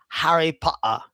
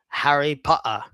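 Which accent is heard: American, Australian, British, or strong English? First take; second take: strong English; strong English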